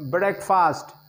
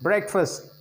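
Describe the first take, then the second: First: The second syllable has a full vowel. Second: The second syllable has a reduced schwa vowel. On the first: The speaker calls it wrong. "which is totally wrong" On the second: The speaker calls it right. "This word is pronounced as breakfast"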